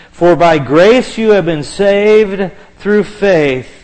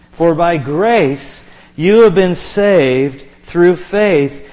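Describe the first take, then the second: Both takes have the same delivery.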